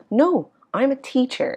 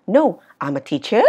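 First: "teacher" settles downward; falling statement tune. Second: "teacher" flicks up like a question; wrong rising ending. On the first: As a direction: let "teacher" drop at the end. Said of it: "cuối thường ngữ điệu đi xuống". ("teacher" xuống giọng cuối câu) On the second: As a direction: raise the end of "teacher", louder. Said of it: "Chứ không ai đọc là". ("teacher" lên giọng cuối câu) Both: Shown as a demonstration.

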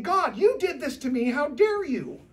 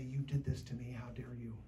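First: Loud, high, indignant cry at God; a believer yelling at God in his anger, loud and high; angry accusation. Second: The same angry words, low and soft; a believer quietly accusing God, low and soft; quiet accusation. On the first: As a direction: hurl it at heaven, outraged. Voicing an angry prayer at God. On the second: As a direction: say it under your breath, hurt not shouting. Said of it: "yell at him and say". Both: Acted.

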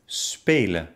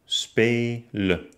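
First: Said in the usual way. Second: Spe-len with a clear gap; spelen by syllables. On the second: Shown as a demonstration. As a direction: pause after spe in spelen. (spelen in Silben gesprochen) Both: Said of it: "trenne das Wort dann".

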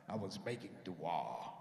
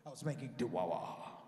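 First: Very low, slow, solemn answer. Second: "dua" stretched with an extra "wa", deep and slow; extra syllable in dua. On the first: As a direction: intone it deep and drawn out. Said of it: "That's the way I said it". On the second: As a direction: intone "dua" low, adding a syllable at the end. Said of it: "I put an extra syllable in it". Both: Retold or imitated.

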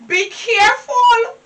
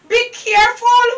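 First: Tearful warning. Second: Said in the usual way. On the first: Acted. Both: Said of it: "You hear me warning you?".

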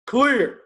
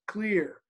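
First: Loud, high and firm; firm commanding clear. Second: Said in the usual way. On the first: Shown as a demonstration. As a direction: call it out with authority. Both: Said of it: "a firm, confident, clear".

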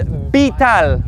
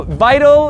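First: Vital as "bee-TAL"; Spanish vital starting with a B. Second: Vital as "VY-tul"; English vital with a V and long I. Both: Shown as a demonstration. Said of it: "V is always gonna be a B".

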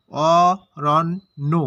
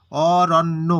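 First: Aranya very slow, in three separated syllables. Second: Said in the usual way. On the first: Shown as a demonstration. Teacher showing there are three syllables, syllable by syllable. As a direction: stretch Aranya out with gaps between beats. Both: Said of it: "এখানে হচ্ছে তিনটি দল".

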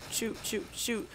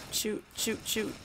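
Both takes have the same delivery.

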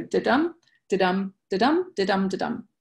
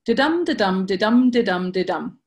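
First: "da-dum" repeated lightly, stress on dum, fading at the end; iambic beat again. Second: Da-dum tapped out with weight on the dum, a little louder; iambic beat. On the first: Teacher recapping the ten syllables, five stresses rhythm for students, lighter da-DUM beat. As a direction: count off "da-dum" five times, weak then strong. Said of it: "ten syllables and five stresses".

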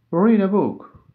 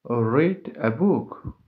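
First: Higher and louder, READ punched hard; loud model reading. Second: Said slowly and carefully, every word clear; slow it down so learners can follow; slow model reading. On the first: Teacher repeats the example loudly for learners. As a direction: call it out with energy. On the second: Teacher reads the example slowly for learners. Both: Shown as a demonstration. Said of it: "For example".

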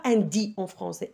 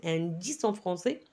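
First: "dix en" with no S between the words; liaison dropped. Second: "dix en" linked with a sounded S; liaison marked. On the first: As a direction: say "dix" wrongly as "di" before "en". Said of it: "on ne dit pas". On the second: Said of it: "on marque la liaison". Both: Shown as a demonstration.

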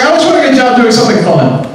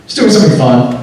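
First: Put-on high-pitched girly voice; young girl. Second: Said in the usual way. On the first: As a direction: mimic a naive girl, pitched way up. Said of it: "this girl was telling a friend".

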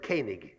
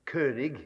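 First: König said as KAY-nig, ö unrounded to ay; Yiddish pronunciation. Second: König with a rounded German ö, KÖ-nig; German König, rounded vowel; German pronunciation. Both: Shown as a demonstration. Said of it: "they would pronounce it König".

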